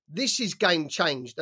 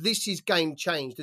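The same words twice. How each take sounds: First: Slow, weighted "This is game changed", each word leaned on; emphasised quote. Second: "This is game changed" said slowly, every word pressed; emphasised quote. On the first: Quoting the promoter's dig at his rival, slow and emphatic. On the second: Repeating the promoter's line to show how he stressed it, slow and pressed. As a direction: drag out "This is game changed" to make the point land. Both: Retold or imitated. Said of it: "he really emphasised that sentence with".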